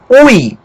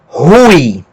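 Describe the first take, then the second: First: It starts directly with the vowel, no breath. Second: It starts with a breathy h sound. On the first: The speaker calls it wrong. "no lugar de pronunciar ui" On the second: The speaker calls it right. "nós vamos pronunciar rui"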